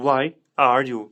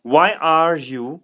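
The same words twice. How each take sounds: First: Said in the usual way. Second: "Why are you" drawn out slowly with a rise on "why"; "Why are you" said slowly, rising; slow rising model. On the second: Shown as a demonstration.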